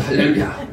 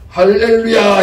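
First: Breathy whispered Hallelujah. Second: A sudden loud, high Hallelujah thrown at the dog. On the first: Pastor nervously greeting the dog again, whispered hallelujah. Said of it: "인사를 딱 올렸습니다". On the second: Pastor greeting the fierce dog at midnight, loud ringing hallelujah. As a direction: greet it with a ringing shout of praise. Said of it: "이러신다". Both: Retold or imitated.

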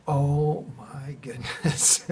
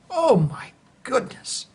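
First: Slow, softer, half-laughing disbelief; very slow laughing wonder; amused disbelief. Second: Much higher, slow astonished gasp; slow, high awestruck exclamation. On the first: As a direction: let a laugh leak through the awe. Seeing tree on lines. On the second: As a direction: stretch it out in awe. Seeing fallen tree. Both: Retold or imitated.

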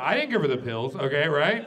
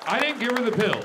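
First: Louder aside; plain. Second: Much higher, loud shouted confession; punchline shout. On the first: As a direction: toss the confession out quickly. Repeated confession line. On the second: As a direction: yell the twist to the crowd. Repeated confession line, higher. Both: Acted.

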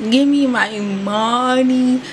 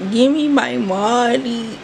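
The two takes are said the same way.

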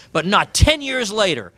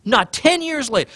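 First: Said in the usual way. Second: "ten" lifted higher in the repeat; stress on ten. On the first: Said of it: "repeated, stressed retake". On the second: Shown as a demonstration. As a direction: say it again, leaning on "ten". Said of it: "repeated for emphasis".

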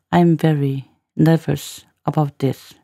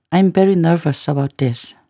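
First: Slow reading with gaps around "nervous"; measured teacher's repeat, piece by piece; slow, chunked demo. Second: Said in the usual way. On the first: Shown as a demonstration. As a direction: spell out each phrase for learners.

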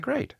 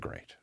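First: "Great" chirped much higher and bright; sing-song easygoing "Great"; chirpy great. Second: Quiet, flat "Great"; barely voiced resignation; deadpan great. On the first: Retold or imitated. Comic acting easygoing, chirping "Great" high. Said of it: "I said". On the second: Comic answering the van news with a soft "Great". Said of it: "And I said".

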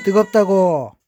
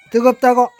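First: Shouting. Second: High yelled complaint; shouting. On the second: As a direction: yell it, louder still. (더 높고 크게 소리치며) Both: Real, not acted.

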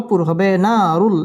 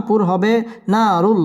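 The two takes are said the same way.

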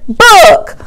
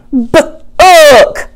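First: Book said whole, pitched up as the answer; blended word. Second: B-ook split into sound and rime; segmented word. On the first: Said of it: "put with ook". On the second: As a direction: say B-ook in two parts, sound then ook. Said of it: "take the B sound and put with ook". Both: Shown as a demonstration.

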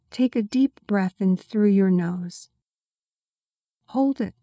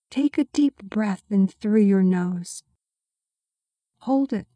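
Both takes have the same delivery.

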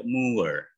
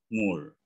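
First: MOOR as moo-er, gliding from u to uh; gliding reading. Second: MOOR as mur, one plain u vowel; simple U reading. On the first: Coach showing the alternative reading, gliding vowel. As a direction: stretch MOOR into two sounds, moo-er. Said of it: "Jadi ada U". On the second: Coach giving the simpler reading first, plain U. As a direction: say MOOR with a single U and no glide. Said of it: "tapi ada juga yang baca". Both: Shown as a demonstration.

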